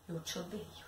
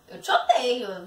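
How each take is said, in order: First: It sounds hurt and pleading for comfort. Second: It sounds playful and not meant seriously. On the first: The speaker wants the listener to console them. "fazer você me consolar" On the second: The speaker wants the listener to laugh. "com o objetivo de fazer você rir"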